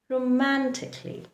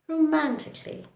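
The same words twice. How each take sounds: No difference in how they are said.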